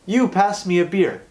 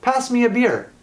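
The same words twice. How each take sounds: First: Pitched up, hitting "You"; wrong form with pronoun. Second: High, bright "Pass me a beer" with a falling end; correct command. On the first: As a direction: stress "You" as the wrong version. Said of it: "Do I say to my sister". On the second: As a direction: say it as a cheery order. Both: Shown as a demonstration.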